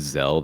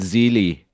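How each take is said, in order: First: The word is said in a plain accent. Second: The word is said in a put-on accent.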